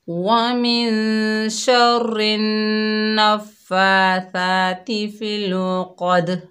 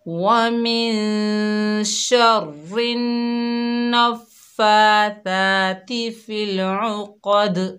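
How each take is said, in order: The two takes are said the same way.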